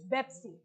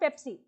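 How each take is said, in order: First: The word begins with a B sound. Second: The word begins with a P sound. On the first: "In Arabic, you don't have pa" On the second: "Pepsi is not Pepsi"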